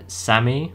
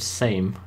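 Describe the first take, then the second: First: The name is said as two syllables. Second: The name is said as one syllable. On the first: The speaker calls it right. "someone said that it's called um, like Sammy" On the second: The speaker calls it wrong. "this is this is called Same"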